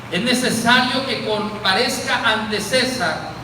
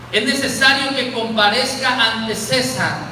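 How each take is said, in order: No difference in how they are said.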